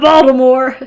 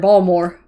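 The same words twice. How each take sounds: First: It is said with a standard general pronunciation. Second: It is said with a local Baltimore pronunciation.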